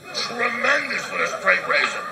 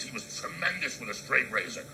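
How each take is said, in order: First: Tremendous with a straight razor drawn out slowly, much higher and louder; emphatic repeat. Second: Said in the usual way. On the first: Acted. Comic repeating his own line to the crowd, slow loud emphasis on Tremendous.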